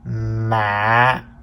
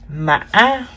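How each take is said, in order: First: The pitch drops low and is cut short. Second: The pitch rises high with a glottal break. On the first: "the low broken tone" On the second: "The fifth tone is called the high broken tone"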